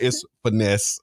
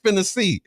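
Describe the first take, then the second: First: It is said as two syllables, 'finesse'. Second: It is said as three syllables, 'finna see'. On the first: The speaker calls it right. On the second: The speaker calls it wrong. "kept saying finna see"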